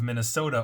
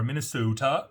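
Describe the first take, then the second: First: Said in the usual way. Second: Minnesota with a put-on Minnesotan accent, lightly done; a quick, lightly done mock Minnesotan Minnesota; bad Minnesotan accent. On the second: Shown as a demonstration. Host mimics how locals say Minnesota, weak Minnesotan accent. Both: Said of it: "That's a horrible accent".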